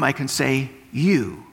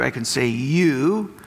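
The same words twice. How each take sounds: First: You said with a falling tune, plural sense; you to everyone, falling; you to the whole room. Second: You said with a rising tune, singular sense; you to one listener, rising; you to one person. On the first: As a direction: drop the end on you, sweeping the room. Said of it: "If I look at this whole room". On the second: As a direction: lift the end on you as if to Andrew alone. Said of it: "if I speak just to Andrew". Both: Shown as a demonstration.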